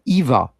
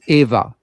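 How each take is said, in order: First: The name begins with an 'ee' sound. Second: The name begins with an 'ay' sound. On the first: The speaker calls it wrong. "So it's not Eva" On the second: The speaker calls it right. "it's Eva"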